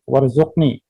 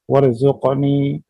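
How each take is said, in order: First: The final vowel is cut short. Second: The final vowel is held long. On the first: The speaker calls it wrong. "doa ini tidak dikembalikan kepada kita seperti" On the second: The speaker calls it right. "ketika kita baca dengan sempurna"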